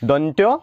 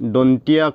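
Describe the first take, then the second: First: The word ends with a joined 'tyo' sound. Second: The word ends with a separate 'tiya' sound. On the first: The speaker calls it right. "শুদ্ধ দন্ত্য" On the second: The speaker calls it wrong. "যিটো ভুল"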